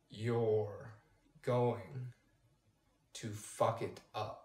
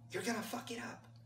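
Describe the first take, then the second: First: It is said much slower still. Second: It is said at normal speed.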